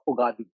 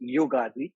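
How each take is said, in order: First: The word begins with a plain vowel sound. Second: The word begins with a 'y' sound. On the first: The speaker calls it wrong. "I have heard people from all across the country saying" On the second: The speaker calls it right. "actual pronunciation is Yugadi"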